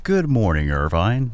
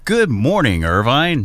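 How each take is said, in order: First: It is said in a plain radio voice. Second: It is said with more energy.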